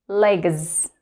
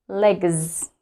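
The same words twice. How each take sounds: The two takes are said the same way.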